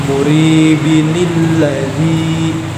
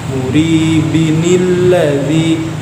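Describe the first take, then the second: No difference in how they are said.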